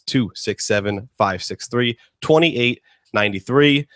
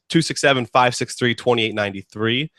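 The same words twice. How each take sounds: First: The number is read at a slower pace. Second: The number is read at a faster pace.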